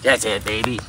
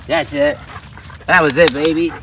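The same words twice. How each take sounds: First: Said in the usual way. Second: Louder, livelier praise; more excitement. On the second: Shown as a demonstration. Trainer offering the dog more excitement, louder praise. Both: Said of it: "I'm offering a little more excitement".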